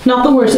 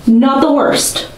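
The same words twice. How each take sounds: First: Said in the usual way. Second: Grudging approval. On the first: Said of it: "repeats quicker". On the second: Real, not acted. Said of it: "judging her bangs, slowly".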